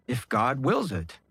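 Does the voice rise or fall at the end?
fall. The voice falls at the end, like a statement.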